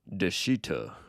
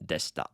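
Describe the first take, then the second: First: The vowel after sh is fully voiced. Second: The vowel after sh is dropped. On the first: The speaker calls it wrong. "A lot of people want to say deshita" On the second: The speaker calls it right. "But this is, yep, deshita"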